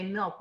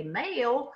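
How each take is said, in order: First: Said in the usual way. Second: "male" stretched into three syllables, higher pitched; drawn-out milk. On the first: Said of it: "learn to say milk with one syllable". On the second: Shown as a demonstration. Teacher imitating a regional pronunciation, "male" drawn out in three syllables. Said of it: "with, like, three syllables".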